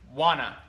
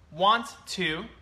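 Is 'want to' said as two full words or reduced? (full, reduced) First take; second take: reduced; full. First: The words blend into one quick reduced word. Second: Both words are said fully and separately.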